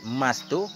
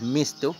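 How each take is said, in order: First: The first vowel is an open 'a' sound. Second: The first vowel is a close 'i' sound. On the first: "Dengan fathah fa" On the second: "dan kasrahnya fa"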